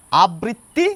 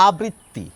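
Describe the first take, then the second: First: আবৃত্তি with a clearly held double tt, abritti; teacher contrasting the two forms; doubled t. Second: আবৃত্তি slow and deliberate, a-britti; slow formal contrast take; careful formal form. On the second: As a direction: say আবৃত্তি slowly, each syllable shaped. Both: Shown as a demonstration. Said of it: "দুটো তফাৎ বুঝতে পারছেন".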